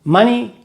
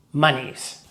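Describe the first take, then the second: First: "Money" said firmly with a falling tune; correct singular form. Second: "monies" dropped low and soft; dismissed wrong plural. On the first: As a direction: say "Money" firmly and let it drop. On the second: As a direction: let "monies" fall away quietly. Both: Shown as a demonstration. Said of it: "money is a singular, uncountable noun".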